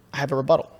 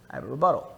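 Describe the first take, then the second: First: Said in the usual way. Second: A soft secretive whisper; whispering the same line. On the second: Shown as a demonstration. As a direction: lean in and whisper it. Line repeated, second whispered.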